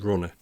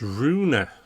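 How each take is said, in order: First: It is said like runner, without the i. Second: It is said with the i sound, roo-in-er. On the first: The speaker calls it wrong. "It's not Runner" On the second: The speaker calls it right. "It's Ruiner. Because there's an I"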